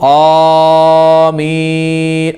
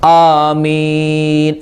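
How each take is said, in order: First: The first vowel is not held slightly long. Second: The first vowel is held slightly long. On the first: The speaker calls it wrong. "പല ആളുകളും ആമീൻ, അങ്ങനെയല്ല" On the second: The speaker calls it right. "ആക്ക് കുറച്ച് നീട്ടിയാൽ മതി"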